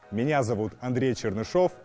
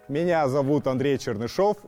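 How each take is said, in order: First: It is spoken in a low chest register. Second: It is spoken in a middle register.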